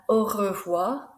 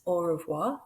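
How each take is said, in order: First: "au revoir" with a rolled French R, slowly. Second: "au revoir" with a plain English R; unrolled R. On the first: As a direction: roll the R in "au revoir". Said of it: "that R sound is rolled". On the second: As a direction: say "au revoir" without rolling the R. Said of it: "If not, it's au revoir". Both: Shown as a demonstration.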